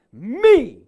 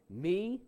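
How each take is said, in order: First: ME boomed out loud and high; emphatic ME. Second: Said in the usual way. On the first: Shown as a demonstration. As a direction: punch out ME with a big, swooping shout. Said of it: "It's this emphatic form of the word". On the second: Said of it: "emphatic form of the word".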